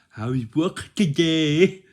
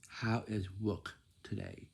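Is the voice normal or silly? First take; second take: silly; normal. First: It is said in a silly, playful voice. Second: It is said in a normal, nice voice. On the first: The speaker calls it wrong. "that sounds silly" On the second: The speaker calls it right. "You say like this"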